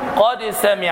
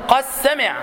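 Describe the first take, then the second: First: The dal is pronounced clearly before the sin. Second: The dal is merged into the sin. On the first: "الإظهار، تقول" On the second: "بعض القراء يقول قد سمع بالإدغام"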